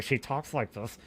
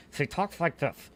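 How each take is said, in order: First: Mumbled through clenched teeth; stiff, low, through gritted teeth; talking through teeth. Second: Lips barely moving, soft; talking through teeth. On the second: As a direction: talk it through your teeth. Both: Shown as a demonstration.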